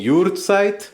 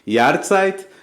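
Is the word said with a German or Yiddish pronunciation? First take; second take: Yiddish; German. First: It is said with a Yiddish pronunciation. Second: It is said with a German pronunciation. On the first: "Em Yiddish costuma-se dizer" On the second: "Em alemão"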